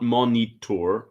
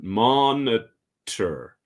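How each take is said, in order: First: It is pronounced the way other languages say it. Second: It is pronounced the English way, three syllables. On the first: The speaker calls it wrong. "It's not monitor like in other languages" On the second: The speaker calls it right. "but monitor"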